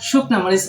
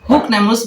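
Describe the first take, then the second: First: The first word begins with a standard sh sound. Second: The first word begins with a dialect h sound. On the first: It is the standard language form. "একটু মাঝে মাঝে একটু শুদ্ধ ভাষা" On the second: It is the local dialect form. "ও কইবার পারি হুকনা মরিচ"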